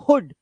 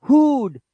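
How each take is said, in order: First: हुड with a short clipped vowel; short 'u', correct. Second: हुड higher, drawn out as 'hoood'; wrong long 'oo'. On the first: Teacher correcting the long reading, short 'u'. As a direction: keep the 'u' in हुड brief. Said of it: "छोटा ऊ होता है". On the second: Teacher showing the reading to avoid, wrong long 'oo'. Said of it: "it's not हुड". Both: Shown as a demonstration.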